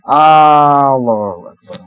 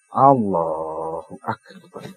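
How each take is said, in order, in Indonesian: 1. Huruf vokal pertama pada Allah dibaca panjang. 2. Huruf vokal pertama pada Allah pendek.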